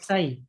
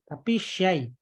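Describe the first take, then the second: First: It begins with a plain s sound. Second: It begins with a sh sound. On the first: The speaker calls it wrong. "Jadi bukan sai" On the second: The speaker calls it right.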